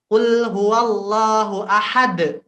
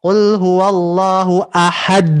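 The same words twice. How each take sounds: First: Slow recitation of "Qul huwallahu ahad" with the d of "ahad" stopped short; chanted Quran demo, "ahad" ending in a sudden stop; correct recitation. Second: "Qul huwallahu ahad" loud and slow, the d of "ahad" pressed and held; loud mock-wrong recitation leaning on the d of "ahad". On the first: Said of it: "Kita harus rem". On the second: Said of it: "Tidak mungkin kita ngomongnya gini". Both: Shown as a demonstration.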